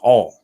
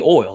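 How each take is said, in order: First: The vowel is flattened, like 'all'. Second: The vowel is a glide, like 'oil'. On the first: "like I said, it's all" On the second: "you don't say oil"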